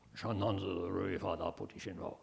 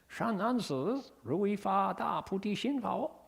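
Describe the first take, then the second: First: It is said in a solemn voice with gravitas. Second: It is said in a funky, playful voice.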